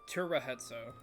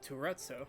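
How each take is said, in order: First: The name is said with all four syllables. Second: The name is clipped to two syllables. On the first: The speaker calls it right. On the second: The speaker calls it wrong.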